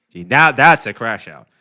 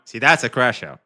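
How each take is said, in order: First: Louder, with the stress punched on "that's"; louder repeat with weight on "that's"; emphatic verdict. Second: Said in the usual way. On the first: Real, not acted. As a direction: hammer the word "that's" home.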